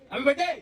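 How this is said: It is said in an angry tone.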